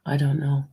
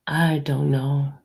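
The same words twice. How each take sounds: First: Said in the usual way. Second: Slow, dragged "I don't know"; drawn out. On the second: Real, not acted. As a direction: stretch "I don't know" out slowly and heavily.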